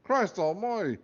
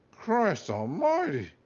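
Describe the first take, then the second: First: High, loud Scottish exclamation; Scottish accent. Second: Failed Scottish accent. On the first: Acted. Talking hat startled inside the boy's head, loud Scottish cry. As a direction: bellow it like a gruff Scottish hat. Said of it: "cried a Scottish accented voice". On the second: Shown as a demonstration. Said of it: "I can't do Scottish".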